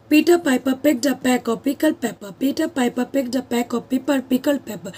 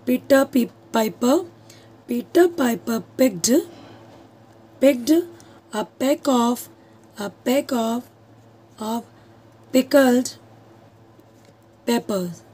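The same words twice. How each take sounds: First: "Peter Piper picked a pack of pickled pepper" run through at a slow, even pace; tongue twister recited. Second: "Peter Piper picked" spaced out slowly; slow tongue twister. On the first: Teacher recites the tongue twister for the class, slow and steady. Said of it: "tongue twister में क्या होता है". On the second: Teacher showing students a tongue twister, slowly. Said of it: "मैं आपको एक टंग twister बताती हूँ". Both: Shown as a demonstration.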